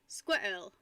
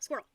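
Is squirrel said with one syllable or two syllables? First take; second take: two syllables; one syllable. First: The word is said with two syllables. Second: The word is said with one syllable. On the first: "some people pronounce it squirrel" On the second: "So I say squirrel, where it's one syllable"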